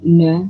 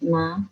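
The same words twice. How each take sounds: First: The syllable is said heavy and thick. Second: The syllable is said light and thin. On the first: The speaker calls it wrong. "bukan na" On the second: The speaker calls it right. "Nun enteng"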